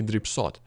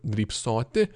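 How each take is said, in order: First: Drybsot ending on t; shortened ending. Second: Drybsoti with final i sounded; full ending. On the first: Teacher showing the short infinitive, drybsot ending on bare t. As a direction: drop the final i from drybsot. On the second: Teacher showing the full infinitive, drybsoti with final i. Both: Shown as a demonstration. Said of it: "infinitives can have shortened endings".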